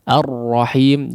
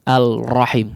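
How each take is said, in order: First: The L sound is fully merged into the R. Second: The L sound is clearly pronounced before the R. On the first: The speaker calls it right. "huruf lam masuk sempurna ke dalam huruf ra" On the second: The speaker calls it wrong. "jadi tidak dibaca Al-Rahim"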